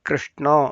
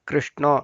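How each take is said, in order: Both takes have the same delivery.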